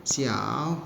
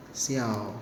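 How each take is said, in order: First: "Xiao" said slowly with a rising end; Mandarin tone demo. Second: "Xiao" said low and falling; Mandarin tone demo. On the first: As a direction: model the word "Xiao", ending on a rise. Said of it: "Kecil itu xiao". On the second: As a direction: model the word "Xiao" low, letting it fall. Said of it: "Xiao artinya kecil". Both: Shown as a demonstration.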